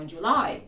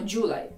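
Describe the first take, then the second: First: The stress is on the second syllable. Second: The stress is on the first syllable. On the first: The speaker calls it right. "ми кажемо July. Наголос падає на Y" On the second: The speaker calls it wrong. "Ми не кажемо July"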